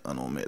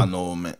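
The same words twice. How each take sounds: First: Low, soft murmur; quiet. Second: Said in the usual way. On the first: Real, not acted. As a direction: drop it to a murmur. Agreeing, repeated much softer.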